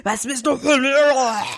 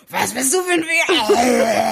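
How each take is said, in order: First: Higher, odd-timbred monster roar. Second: Higher, laughing mock roar; half-laughing bark at the man; mock monster voice. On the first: Retold or imitated. To the man on the train, a retold monster-voiced roar. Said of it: "Ich bin so mit meiner Monsterstimme". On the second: On the train, a laughing mock monster roar. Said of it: "mit meiner Monsterstimme".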